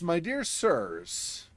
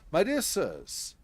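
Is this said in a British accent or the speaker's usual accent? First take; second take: usual accent; British accent. First: It is read in the speaker's usual accent. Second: It is read in a put-on British accent.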